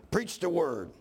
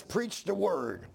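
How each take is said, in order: First: "Preach the word" preached with a push of force. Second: "Preach the word" slow, each word weighted; slow quoted. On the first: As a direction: start preaching it out. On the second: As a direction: read it slowly and deliberately. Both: Shown as a demonstration. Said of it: "I about preach all myself".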